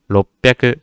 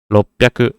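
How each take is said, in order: No difference in how they are said.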